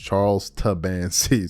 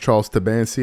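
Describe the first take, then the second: First: The name is said slowly. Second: The name is said fast.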